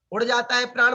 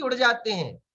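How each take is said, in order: First: उड़ जाता है pitched high as a doubtful option; singular option questioned. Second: उड़ जाते हैं falling at the end; plural option offered. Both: Shown as a demonstration. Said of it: "बोलते हैं कि".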